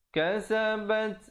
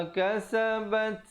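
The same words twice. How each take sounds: No difference in how they are said.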